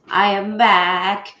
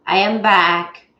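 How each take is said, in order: Both takes have the same delivery.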